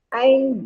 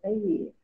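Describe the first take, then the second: First: The word is cut short to ay. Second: The word is said in full as ayyi. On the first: The speaker calls it wrong. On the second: The speaker calls it right.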